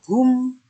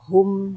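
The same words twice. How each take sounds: First: The vowel is a pure, straight u. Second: The vowel slants toward an o sound.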